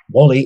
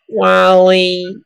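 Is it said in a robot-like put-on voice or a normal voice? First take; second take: normal voice; put-on voice. First: It is said in his normal voice. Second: It is said in a put-on robot voice.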